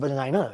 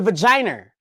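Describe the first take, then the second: First: The word is said without an added R sound. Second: The word is said with an added R sound. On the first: It sounds plain. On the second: It sounds more royal.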